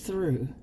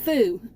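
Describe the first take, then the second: First: The word is said with a clear r sound. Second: The word is said without the r sound. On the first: The speaker calls it right. "But it's through" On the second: The speaker calls it wrong. "It's not through"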